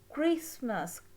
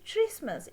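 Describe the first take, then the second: First: The word begins with a 'k' sound. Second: The word begins with a 'ch' sound. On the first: The speaker calls it right. "It's Christmas. K. Ch sound is k" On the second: The speaker calls it wrong. "We don't say Christmas"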